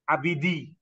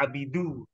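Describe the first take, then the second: First: The word ends with an 'ee' vowel. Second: The word ends with an 'oo' vowel. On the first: The speaker calls it wrong. "tadi Bapak membacanya abidi" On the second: The speaker calls it right. "Ini dibaca abidu karena dia menjadi fa'ilnya takhdumu"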